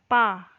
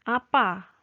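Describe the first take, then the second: First: The first syllable is dropped, leaving pa. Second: Both syllables are clearly pronounced.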